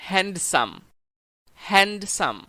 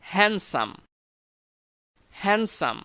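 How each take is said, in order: First: "হ্যান্ডসাম" with the d sounded; common mispronunciation. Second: "হ্যান্ডসাম" with a silent d; correct pronunciation. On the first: Teacher shows learners their usual slip, d sounded. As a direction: say "হ্যান্ডসাম" as "hand-sam", d pronounced. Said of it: "সাধারণত আমরা বলে থাকি". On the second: Teacher models the right word, d dropped. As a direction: say "হ্যান্ডসাম" as "han-sam", no d. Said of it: "কিন্তু শুদ্ধ উচ্চারণ হবে". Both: Shown as a demonstration.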